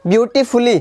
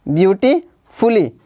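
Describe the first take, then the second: First: Said in the usual way. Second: "beautifully" slowly, pausing before fully; teacher sounding out "beautifully" in parts; broken into syllables. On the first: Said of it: "अब third देखते हैं हम". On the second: Shown as a demonstration. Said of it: "जितना भाग एक बार में बोला जाता है".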